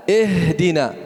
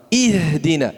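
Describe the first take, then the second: First: Ihdina said as ehdina, open e; wrong vowel. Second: Ihdina with a clear kasrah i; correct i. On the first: (ihdina dibaca ehdina, salah) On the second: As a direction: say ihdina with a clean i. (ihdina dengan i jelas) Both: Shown as a demonstration. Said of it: "I, bukan".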